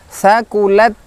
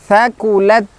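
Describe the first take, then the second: No difference in how they are said.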